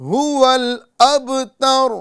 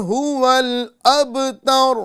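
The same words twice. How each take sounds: Both takes have the same delivery.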